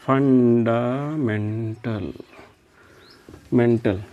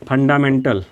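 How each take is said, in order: First: Slowly dictated fundamental; slow drawn-out term. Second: Said in the usual way. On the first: Shown as a demonstration.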